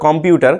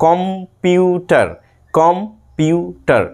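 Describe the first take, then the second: First: Said in the usual way. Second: computer very slowly in three parts, কম, পিউ, টার; syllable breaks. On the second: Shown as a demonstration. Teacher counts syllables for students, computer broken into three slow parts. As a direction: stop after each syllable of computer. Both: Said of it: "তিনবার থামতে হচ্ছে আমাদেরকে".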